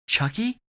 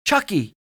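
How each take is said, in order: First: High, rising questioning call; worried question. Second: High, loud call of a name; shout. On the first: Owen checks on his groaning friend, worried question. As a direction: ask it upward, unsure and concerned. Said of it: "Owen said and fell beside Chance". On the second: Owen calls to Chance over the sawing, shouting. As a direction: shout to get his attention. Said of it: "Owen shouted". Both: A narrator's reading.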